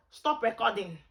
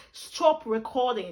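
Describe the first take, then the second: First: Said in the usual way. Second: Slow, put-on British accent command. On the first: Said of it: "When I use my Nigerian accent". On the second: Shown as a demonstration. Telling the camera to stop, British accent. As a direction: stretch the words in a British accent. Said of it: "When I use British accent".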